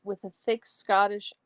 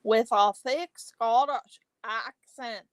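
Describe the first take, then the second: First: Said in the usual way. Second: Put-on playful, imperfect thick Scottish accent; amateur imitation of thick Scottish; attempted Scottish accent. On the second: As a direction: have a go at a broad Scottish accent. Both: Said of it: "I can't do it like Nora does".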